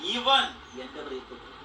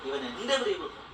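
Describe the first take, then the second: First: The stress falls on the first word. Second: The stress falls on the second word.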